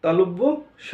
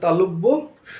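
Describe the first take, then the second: The two takes are said the same way.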